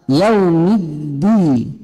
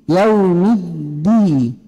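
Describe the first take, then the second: No difference in how they are said.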